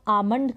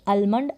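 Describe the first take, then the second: First: The L sound is left out. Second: The L sound is clearly pronounced. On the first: The speaker calls it right. "इसको हम आमंड करके पढ़ेंगे। एल यहाँ पर silent है" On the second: The speaker calls it wrong. "आप ऐसे पढ़ेंगे इसको अलमंड ... जो कि बिल्कुल गलत है"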